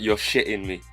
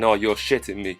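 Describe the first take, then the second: First: The T sounds are dropped in his accent. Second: The T sounds are clearly pronounced.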